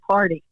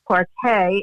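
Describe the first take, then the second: First: The word is said with an American pronunciation. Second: The word is said with a French pronunciation. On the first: "Americans say party" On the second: "that's how the French say it"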